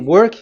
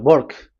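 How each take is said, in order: First: It starts with a w sound. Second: It starts with an Indian English b-like sound.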